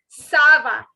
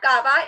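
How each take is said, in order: First: The word starts with an s sound. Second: The word starts with a k sound. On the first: The speaker calls it right. "it is sava" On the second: The speaker calls it wrong. "please don't make this error of saying kava. It is not kava"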